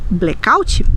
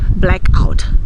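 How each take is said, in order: First: It is said with a Brazilian Portuguese pronunciation. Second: It is said with an English pronunciation. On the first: "nós vamos dizer blackout" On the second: "Nós não vamos dizer blackout"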